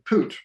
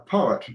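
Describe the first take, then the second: First: The word is squeezed into one syllable, poot. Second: The word is said in its usual form. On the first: The speaker calls it wrong. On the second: The speaker calls it right.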